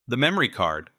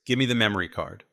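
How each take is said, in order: First: "memory" pressed, a little higher and louder; firm repeat. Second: Said in the usual way. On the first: Acted. Nate repeats his demand to Ivy, hitting "memory". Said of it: "I repeated".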